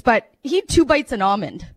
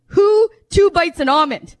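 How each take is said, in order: First: Said in the usual way. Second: "Who" punched and louder, words slow; stress on WHO. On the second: Real, not acted. Comic asks the crowd, punching "Who" slowly. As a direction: hit "Who" hard, slow the rest.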